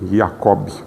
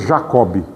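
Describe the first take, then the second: First: The name has German pronunciation, starting with i. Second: The name has its Portuguese pronunciation. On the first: "Em alemão a pronúncia é com I" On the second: "Em português é Jacob"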